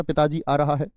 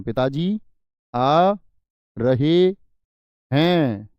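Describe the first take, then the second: First: Said in the usual way. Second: "पिताजी... आ... रहे... हैं", each word spaced out and louder; teacher stressing "रहे हैं" slowly and firmly; correct form, word by word. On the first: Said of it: "आप कभी भी ये इस्तेमाल करेंगे क्या". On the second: Shown as a demonstration. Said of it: "पिताजी के लिए बहुवचन".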